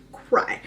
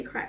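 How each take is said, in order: First: "cry" in a breathy, unvoiced stretch for emphasis; emphatic CRY. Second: Said in the usual way. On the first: Shown as a demonstration. Reader stressing how hard the book made her cry, emphatic hushed "cry". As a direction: hush and draw out "cry" to mean serious crying. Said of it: "I mean, like, cry". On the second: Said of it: "when I say cry".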